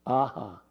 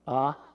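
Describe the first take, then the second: First: The vowel is repeated after the breath. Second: It ends with a puff of breath. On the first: "echo the vowel right in front of it" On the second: "with extra air coming out"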